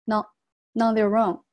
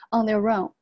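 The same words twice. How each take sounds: First: On their own begun with N, "non their own"; linked N. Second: On their own with R joined to own; linked R. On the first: Teacher shows linking from previous word, "non their own". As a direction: carry the N of than into on. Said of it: "也可以把它连起来". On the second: Teacher demonstrates liaison, their own linked through R. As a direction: run their into own, "their-rown". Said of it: "这里有一个连读，R和O放一块儿". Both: Shown as a demonstration.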